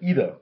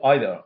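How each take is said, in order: First: The first vowel sounds like 'ee'. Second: The first vowel sounds like 'eye'. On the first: This is the American form. "যখন American English হচ্ছে তখন কিন্তু সেটা ইদার" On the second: This is the British form. "যখন আমরা British English উচ্চারণ করছি তখন কিন্তু আইদার"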